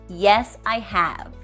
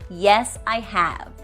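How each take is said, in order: No difference in how they are said.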